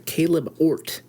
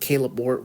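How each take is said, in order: First: The name is pronounced slowly and carefully. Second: The name is pronounced loosely and carelessly. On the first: The speaker calls it right. "I try to pronounce that a little bit better" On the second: The speaker calls it wrong.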